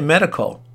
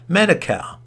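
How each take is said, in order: First: The last syllable is reduced, sounding like 'cull'. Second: The last syllable has a full 'cal' vowel. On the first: "No, you say medical" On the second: "It ends C-A-L, medical"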